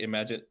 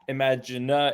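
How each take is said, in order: First: The word ends on n with no extra vowel. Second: An extra vowel is sounded after the final n. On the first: The speaker calls it right. "You don't hear that E sound" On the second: The speaker calls it wrong. "it's not imaginer"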